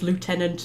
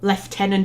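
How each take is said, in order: First: It is said with a French pronunciation. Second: It is said with an English pronunciation. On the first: "instead of" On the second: "they like deliberately pronounce them wrong"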